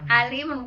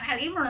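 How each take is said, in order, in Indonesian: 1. Ali dimulai dengan vokal panjang biasa. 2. Ali dimulai dengan konsonan tenggorokan. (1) "ya keluarga" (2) "bukan Ali Imran sayang"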